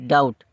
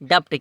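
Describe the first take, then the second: First: No b sound is pronounced before the t. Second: A b-like sound is pronounced before the t. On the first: "बी जब silent हो जाता है" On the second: "ये पढ़ने में लगता है"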